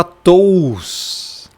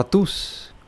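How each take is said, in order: First: "tous" drawn out with o and u both sounded; exaggerated literal "tous"; wrong, as written. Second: "tus" with a single u vowel; softer "tus", diphthong as one sound; correct Greek sound. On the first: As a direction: stretch "tous" into to-us. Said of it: "Você não vai falar". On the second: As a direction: say "tus" short, no o. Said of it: "você vai falar". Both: Shown as a demonstration.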